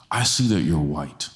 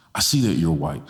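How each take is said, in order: Both takes have the same delivery.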